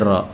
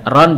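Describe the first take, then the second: First: The syllable ends in a lengthened vowel. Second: The syllable ends with an n sound.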